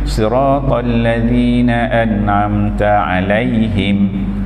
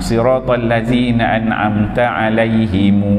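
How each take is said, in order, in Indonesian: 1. Kata terakhir berakhir dengan bunyi m tertutup. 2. Kata terakhir diakhiri dengan vokal u tambahan. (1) "kita berhenti pada alaihim yang pertama, maka dia matikan mim tu" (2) "kalau dia baca terus satu ayat"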